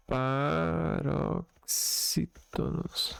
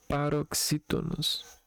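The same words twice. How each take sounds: First: "paroxítonos" very slowly, syllable by syllable; sounding out. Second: Said in the usual way. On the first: Shown as a demonstration. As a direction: stretch each syllable of "paroxítonos". Sounds out the key term. ("paroxítonos" bem devagar, sílaba por sílaba)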